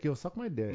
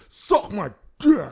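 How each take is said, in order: First: It is said with a casual, friendly tone. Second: It is said with a hostile, dismissive tone. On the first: It sounds like a friendly, offhand remark. The speaker calls it wrong. "It can never just be like" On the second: The speaker means it as a personal insult. The speaker calls it right. "you have to have a level of ignorance behind it"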